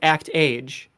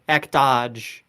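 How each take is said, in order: First: The ending sounds like the English word age. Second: The ending has a soft French zh sound. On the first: The speaker calls it wrong. "it's actually not pronounced act age" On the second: The speaker calls it right. "It's a French pronunciation, so it's like actage"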